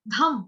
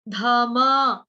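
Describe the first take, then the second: First: The word ends on the consonant sound. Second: The word ends with an added vowel sound. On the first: The speaker calls it right. "कैसे गाएंगे? धम" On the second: The speaker calls it wrong. "ऐसे नहीं गाएंगे"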